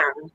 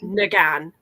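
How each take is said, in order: First: The name begins with a 'nya' sound. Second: The name begins with a 'nag' sound. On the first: The speaker calls it right. "when it's N G, you pronounce it Nya. So it's actually Natasha" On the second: The speaker calls it wrong.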